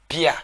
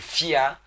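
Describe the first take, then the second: First: The word begins with a p sound. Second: The word begins with an f sound. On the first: This is how the Eton say it. "l'étonne va dire" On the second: This is how the Fang Beti say it. "le F est le P chez les étones. C'est-à-dire quand le Fang Beti dit"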